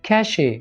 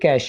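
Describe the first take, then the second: First: It is said with two syllables, ending in 'ay'. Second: It is said with one syllable, ending in 'sh'. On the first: The speaker calls it wrong. "इसको ऐसे बोलते हैं कैशे" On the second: The speaker calls it right. "ये कैश ही है, बिल्कुल simple"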